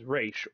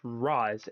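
First: The name is given its Hebrew pronunciation. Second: The name is given its Arabic pronunciation. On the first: "in Hebrew, it's pronounced as Raish or Rosh" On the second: "in Arabic, it's pronounced as Roz"

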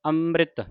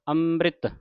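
The two takes are said the same way.

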